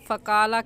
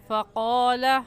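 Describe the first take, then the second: First: The q sound is light, with unrounded lips. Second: The q sound is heavy, with rounded lips. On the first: The speaker calls it wrong. "यहाँ पर फ़क़ाला कहना गलत है" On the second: The speaker calls it right. "क़ाफ़ को मोटा करके पढ़ेंगे"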